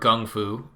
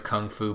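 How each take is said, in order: First: The first word begins with a g sound. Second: The first word begins with a k sound.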